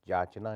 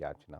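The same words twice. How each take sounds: First: जाचना starting with a j. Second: Said in the usual way. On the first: Shown as a demonstration. Teacher shows the error, जाचना with j. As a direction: say jachna for yachna, जाचना. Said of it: "नहीं होती". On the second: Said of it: "होती है".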